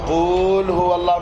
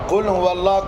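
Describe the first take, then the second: First: A short sound is stretched out long. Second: The sounds are said at normal length. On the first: The speaker calls it wrong. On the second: The speaker calls it right.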